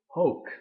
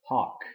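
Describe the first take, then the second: First: The vowel O is long. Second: The vowel O is short. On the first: It is the neuter ablative singular form. "The neuter ablative singular" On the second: It is the neuter accusative singular form. "The neuter accusative singular"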